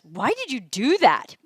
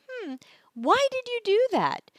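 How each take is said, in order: First: The question sounds sharp and accusing. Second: The question sounds gentle and curious.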